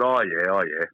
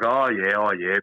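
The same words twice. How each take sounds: First: Dry, disbelieving, a little lower; sceptical oh yeah. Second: Doubtful, humouring tone, not buying it; sceptical oh yeah. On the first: Answering Carl's offer of a game, doubtful. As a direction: humour him without believing a word. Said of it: "I said". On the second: Telling how he doubted Carl's promise, sceptical. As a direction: brush off a mate's empty promise. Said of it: "so I was like". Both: Retold or imitated.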